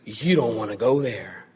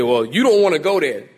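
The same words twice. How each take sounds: First: Lower, softer sincere warning; mean it, gently and gravely; earnest warning. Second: A light mock of people brushing it off; sassy slang. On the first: Retold or imitated. Preacher voicing Jesus warning his listeners, earnest and soft. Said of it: "Jesus says". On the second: Preacher mimics people dismissing hell, lightly sassy. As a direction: toss it off like a dismissive catchphrase. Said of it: "people say".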